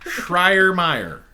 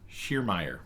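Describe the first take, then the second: First: The first syllable contains an R sound. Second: The first syllable has no R sound. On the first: The speaker calls it wrong. "I don't think there's an R" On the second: The speaker calls it right. "It's just Schiermeyer"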